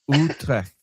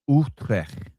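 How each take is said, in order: First: The final T is hard and crisp. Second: The final T is soft and weak. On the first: The speaker calls it right. "Just pronounce the T a little bit harder at the end" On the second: The speaker calls it wrong. "almost, almost"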